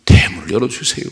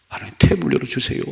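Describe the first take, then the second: First: Loud, pleading petition; pleading cry. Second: High, breathy broken plea; wailing whisper. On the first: Hannah crying out to God, loud and pleading. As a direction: beg for the womb to open. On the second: Hannah repeating her prayer in tears, whispered. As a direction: plead until the voice gives out. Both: Retold or imitated. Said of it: "반복하고 통곡했어요".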